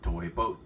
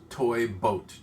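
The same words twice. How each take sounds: First: The phrase is said at a fast pace. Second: The phrase is said at a slow pace. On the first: "if you try to say it faster" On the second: "I'm doing it slowly"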